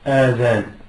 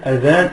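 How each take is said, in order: First: The first vowel is drawn out long. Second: The first vowel is kept short. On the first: The word means the ears. The speaker calls it wrong. "et non adhan" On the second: The word means the call to prayer. The speaker calls it right. "il faut bien dire adhan"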